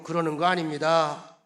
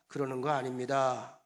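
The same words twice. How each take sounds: First: Much louder, emphatic call-out. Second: Said in the usual way. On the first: Shown as a demonstration. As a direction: lead the congregation loudly. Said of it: "큰 소리로". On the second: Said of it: "따라합시다".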